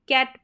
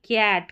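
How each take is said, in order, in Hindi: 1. स्वर छोटा और झटके से बोला जाता है। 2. स्वर खींचकर लंबा बोला जाता है। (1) "हम कैट पढ़ेंगे" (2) "ना कि कैट, खींच के नहीं पढ़ेंगे"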